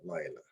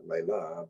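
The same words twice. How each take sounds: First: Lila stressed on the first syllable, LI-la. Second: Lila stressed on the last syllable, li-LA; wrong stress. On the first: Teacher showing students the right stress, LI-la. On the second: Teacher showing students the wrong stress, li-LA. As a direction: say Lila as li-LA, leaning on the end. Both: Shown as a demonstration. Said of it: "Notice the accents on the first syllable here".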